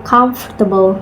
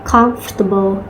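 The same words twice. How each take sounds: Both takes have the same delivery.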